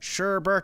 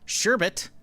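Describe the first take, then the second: First: The second syllable has an r sound. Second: The second syllable has no r sound.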